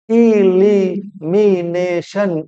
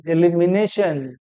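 First: ইলিমিনেশন slowly as ই, লি, মি, নে, শন; polysyllable split. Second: Said in the usual way. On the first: Shown as a demonstration. Teacher showing polysyllables, ইলিমিনেশন slowly syllable by syllable. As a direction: break ইলিমিনেশন into separate even beats. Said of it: "তিনের বেশি syllable". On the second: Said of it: "polysyllable বা polysyllabic word".

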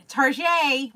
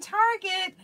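First: "Tarjay" said mock-French, tar-ZHAY; "Tarjay" as a fancy French-style Target; fancy pronunciation. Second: Said in the usual way. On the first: Shown as a demonstration. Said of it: "so he was fancy". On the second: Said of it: "We used to call him Tarjay".

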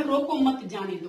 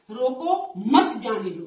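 First: रोको मत run together, then जाने दो; मत grouped with रोको. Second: रोको set apart, then मत जाने दो; slow and louder, clear gap after रोको; pause after रोको. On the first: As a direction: keep रोको मत as one unit. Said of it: "भी उसे रोकना नहीं है". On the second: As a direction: split off रोको, join मत to जाने दो. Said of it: "थोड़ी सी भी दूरी आ जाती है". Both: Shown as a demonstration.

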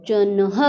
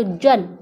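First: जन्ह with an added "ha" at the end; audible final h. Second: Said in the usual way. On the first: Shown as a demonstration. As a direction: say जन्ह as "jana-ha". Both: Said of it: "ह की sound आई".

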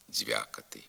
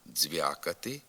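First: «дзвякати» low and softer, with palatalized дз; softened дз. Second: «дзвякати» with дз hard, rising end; as written. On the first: Teacher giving the pronunciation, soft дз in «дзвякати». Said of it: "а вимовляємо". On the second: Teacher reading the spelling, hard дз in «дзвякати». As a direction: say «дзвякати» with an unsoftened дз. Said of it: "Пишемо". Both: Shown as a demonstration.

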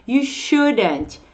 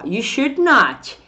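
First: "shouldn't" run together as one word; "shouldn't" with a short unstressed "n't" ending; contracted form. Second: "should not" slowly, word by word; full, uncontracted "should not"; two separate words. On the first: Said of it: "é a contração dessa palavrinha". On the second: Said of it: "ele tá separado". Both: Shown as a demonstration.

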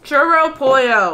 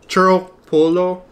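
First: "Churro pollo" said slowly as a correction; "Churro pollo" spelled out slowly, higher and louder; correcting pronunciation. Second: Churro polo said slowly, mangled; "churro polo" stumbled over; mispronounced. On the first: Shown as a demonstration. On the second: Real, not acted. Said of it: "Butchered it".

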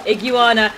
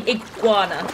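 First: "Iguana" said ig-you-AH-na; mispronounced iguana. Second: "iguana" said ig-WAH-na; corrected iguana. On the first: Player misreads the animal, "Iguana" as ig-you-AH-na. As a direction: say "Iguana" loudly, with a "you" in the middle. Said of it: "I was wrong". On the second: Player corrects the word, "iguana" as ig-WAH-na. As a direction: say "iguana" with a "gwa" in the middle. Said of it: "It's iguana, I know now". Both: Real, not acted.

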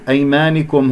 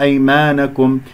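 First: أيمانكم read "aymanikum"; kasra on nun. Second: أيمانكم read "aymanakum"; fatha on nun. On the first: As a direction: sound an i after the nun in أيمانكم. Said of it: "الأولى جاءت مكسورة". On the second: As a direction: sound an a after the nun in أيمانكم. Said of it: "النون مفتوحة". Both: Shown as a demonstration.

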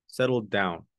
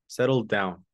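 The two takes are said the same way.

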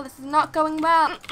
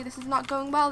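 First: Louder exasperated repeat. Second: Said in the usual way. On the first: Real, not acted. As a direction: say it again, louder and fed up. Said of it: "repeated louder, second take". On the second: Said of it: "repeated line, first take".

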